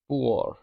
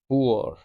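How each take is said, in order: No difference in how they are said.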